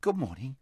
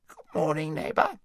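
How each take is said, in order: First: Said in the usual way. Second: High, wheezy hedgehog greeting; a thick, wheezy little creature voice. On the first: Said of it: "said Shasta". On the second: A narrator's reading. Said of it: "a thick and rather wheezy voice".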